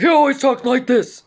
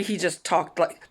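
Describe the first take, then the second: First: Loud, raised imitation of a man with no quiet setting; booming stepfather voice. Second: Said in the usual way. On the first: Daughter imitates her stepfather who filled the room, booming. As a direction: belt it out as his everyday voice. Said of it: "he never really spoke quietly". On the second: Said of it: "he wasn't angry".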